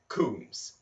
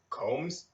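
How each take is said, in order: First: The vowel sounds like the one in 'room'. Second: The vowel sounds like the one in 'comb'.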